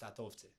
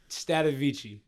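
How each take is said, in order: First: The surname is said with Albanian pronunciation. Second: The surname is said with English pronunciation. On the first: "My real name in Albanian is" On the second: "In English, in English, that's not how you say it in Albanian though"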